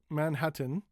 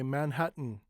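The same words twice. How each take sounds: First: The T before the N is fully released. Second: The T before the N is held back. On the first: "with a strong T and in" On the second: "but many people say Manhattan"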